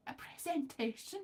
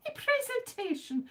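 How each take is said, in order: First: "A presentation?" asked softly with a rising tune; questioning tune. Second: "A presentation." said much higher with a falling tune; grand announcement. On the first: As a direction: query the word "presentation" quietly, rising at the end. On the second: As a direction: proclaim "presentation" high and proud, falling at the end. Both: Shown as a demonstration.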